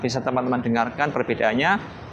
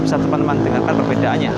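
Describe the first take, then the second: First: Background noise is suppressed behind the voice. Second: Background noise is audible behind the voice. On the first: "sekarang fitur noise reduction-nya udah nyala" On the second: "sekarang fitur noise reduction-nya sudah mati"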